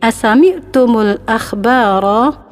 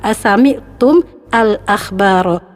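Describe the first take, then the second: First: The words are linked with an 'u' after mim. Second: The words are said separately, mim without a vowel. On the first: "kalau kita mau sambung berarti mim ini kita domahkan" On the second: "ini kalau dipisah gampang"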